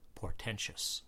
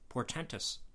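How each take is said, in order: First: The ending is said with a SH sound. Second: The ending is said with a T sound. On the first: The speaker calls it wrong. "Not portentous" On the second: The speaker calls it right. "The word portentous ends in T-O-U-S"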